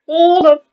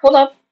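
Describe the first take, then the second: First: Loud, higher, drawn-out double take; astonished. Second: Short, loud interruption; startled. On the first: Vlogger checking the views, drawn-out astonishment. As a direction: stretch the first word high and loud. Startled by view count, repeated. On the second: Vlogger checking the views, short startled interjection. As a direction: cut in quickly and loudly. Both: Real, not acted.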